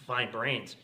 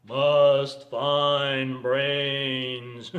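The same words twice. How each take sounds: First: Said in the usual way. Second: Long, droning zombie moan, loud. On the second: Acted. Driving dead hunting for brains, zombie drone. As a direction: drag every word out like the hungry undead. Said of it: "People drive like zombies".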